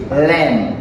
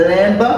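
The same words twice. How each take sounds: First: Lamb ending on m, falling; silent B. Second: Lamb with an audible b at the end; sounded B. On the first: Teacher models it for students, lamb with silent B. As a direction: say lamb as "lem" with no b. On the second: Teacher shows students the mistake, lamb with the B sounded. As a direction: say lamb as "lemb", rising. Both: Shown as a demonstration. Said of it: "B a pas prononcé là".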